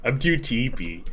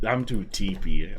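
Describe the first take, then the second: First: Says "teepee" again instead of sleepy, "I'm too teepee"; sleepy still comes out "teepee"; tired mumble of "teepee"; tongue slip on sleepy. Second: Sleepy slurred into "teepee", "I'm too teepee"; tired slip saying "teepee" for sleepy; drowsy mispronounced "teepee"; tongue slip on sleepy. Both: Real, not acted. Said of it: "I can't even say sleepy".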